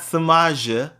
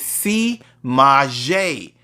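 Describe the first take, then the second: First: The first syllable sounds like 'sub'. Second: The first syllable sounds like 'see'. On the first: The speaker calls it wrong. "It's not Samaja" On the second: The speaker calls it right. "it's not sub, but C"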